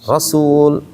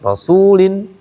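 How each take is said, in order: First: The word ends on the bare consonant 'l'. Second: The word ends with an '-in' syllable. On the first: The reader stops at this word. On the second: The reading continues without a stop.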